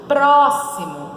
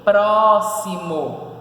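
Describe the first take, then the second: First: Said in the usual way. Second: Próximo very slow and loud, pró, xi, mo; split into syllables. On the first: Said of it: "Se a gente for separar". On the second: Shown as a demonstration. Teacher answering how it separates, Próximo syllable by syllable. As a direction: pull Próximo apart into long syllables. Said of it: "Se a gente for separar, fica o quê?".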